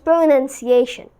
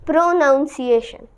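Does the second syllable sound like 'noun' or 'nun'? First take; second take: nun; noun. First: The second syllable sounds like 'nun'. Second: The second syllable sounds like 'noun'. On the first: The speaker calls it right. "It is pronunciation, nunciation" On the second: The speaker calls it wrong. "That's what people say pronunciation, which is wrong"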